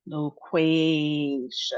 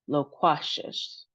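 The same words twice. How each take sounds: First: Loquacious as a slow "lo-KWAYY-shus"; long middle vowel. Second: Loquacious as "lo-KWAH-shus", the wrong way; short middle vowel. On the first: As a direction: stretch the "kway" in Loquacious. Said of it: "we have two long sounds". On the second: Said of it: "instead of just". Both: Shown as a demonstration.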